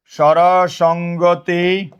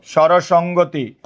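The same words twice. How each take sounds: First: স্বরসঙ্গতি drawn out very slowly, syllable by syllable; very slow, level স্বরসঙ্গতি; slow dictation. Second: Said in the usual way. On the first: Shown as a demonstration. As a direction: stretch each syllable of স্বরসঙ্গতি for note-takers. Teacher repeats term slowly for dictation.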